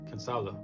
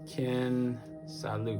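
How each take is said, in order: First: The last syllable ends with an 'ah' sound. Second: The last syllable ends with an 'oo' sound. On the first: The speaker calls it right. "I don't know why I keep saying Lou" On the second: The speaker calls it wrong. "I pronounced it weird"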